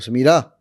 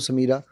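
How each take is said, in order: First: The name is said in a harsh tone. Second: The name is said in a neutral tone.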